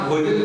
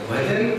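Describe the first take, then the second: First: The first vowel is an 'o' sound. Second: The first vowel is a short 'a' sound. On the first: "बंगालियों को अ का उच्चारण ओ होता है" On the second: "भजन का भोजन बन गया"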